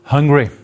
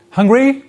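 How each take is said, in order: First: "Hungry" as a statement, falling at the end; flat-out declarative "Hungry" with a closing fall; statement intonation. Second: "Hungry" as a question, pitch leaping high; high rising "Hungry?"; question intonation. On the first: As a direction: state "Hungry" firmly, pitch dropping. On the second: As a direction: ask "Hungry?" with a steep rise at the end. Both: Shown as a demonstration. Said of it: "Two different intonation patterns".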